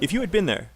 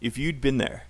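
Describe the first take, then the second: First: The word had is said in full. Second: The word had is contracted to 'd.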